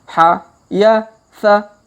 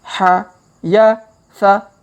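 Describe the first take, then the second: Both takes have the same delivery.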